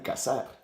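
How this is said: The z is said with an s sound. "In Latin American, they would just sound like"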